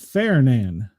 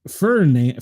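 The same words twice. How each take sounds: First: The first syllable sounds like 'fair'. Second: The first syllable sounds like 'fur'. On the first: This is the official pronunciation of the name. "but they're calling it Ferdinand. Fair sounds like" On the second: This is how the speaker would read the name. "I'm reading that as Ferdinand"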